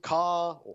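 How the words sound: It is said in a general English accent. "Or in England"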